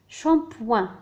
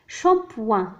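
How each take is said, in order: Both takes have the same delivery.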